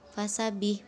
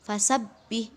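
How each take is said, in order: First: The b sound is short and single. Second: The b sound is pressed and held double. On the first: The speaker calls it wrong. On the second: The speaker calls it right. "maka ditekan ya"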